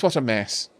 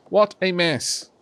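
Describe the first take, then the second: First: Said in the usual way. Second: "What a mess" slow and higher, each word weighted; emphatic repeat. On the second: Real, not acted.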